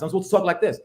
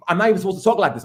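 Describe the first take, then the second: First: Softer, buttoned-up professor voice; proper academic voice. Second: Said in the usual way. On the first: Shown as a demonstration. Professor mocking his own proper lecture voice. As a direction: put on polite Ivy League talk.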